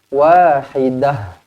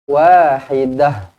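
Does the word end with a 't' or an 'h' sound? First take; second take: h; h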